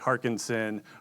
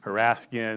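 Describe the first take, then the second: First: The name is said as Harkinson. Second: The name is said as Haraskin. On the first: "people say Harkinson" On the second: "people say"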